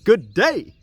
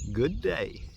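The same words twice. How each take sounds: First: It is said forcefully, with a lot of gusto. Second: It is said calmly, in a plain voice.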